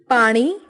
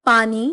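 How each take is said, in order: First: Retroflex N in पानी; Haryanvi pronunciation. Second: Said in the usual way. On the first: Shown as a demonstration. Teacher showing Haryanvi speech, पानी with ण for न. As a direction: say पानी with a curled-tongue ण. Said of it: "Haryanvi उच्चारण". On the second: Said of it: "Hindi उच्चारण".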